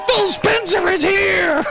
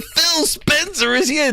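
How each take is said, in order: First: High, slow mock announcer shout; Major Nelson. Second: Lightly imitated drawn-out announcement; Major Nelson. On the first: Streamer mimicking the host's guest reveal, hammed-up announcing. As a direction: draw it out in a hammed-up hype voice. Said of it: "Major Nelson goes". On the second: Streamer quoting the host announcing a guest, mildly mock-announcing. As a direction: stretch it out like a mock event host. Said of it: "what did Major Nelson say?".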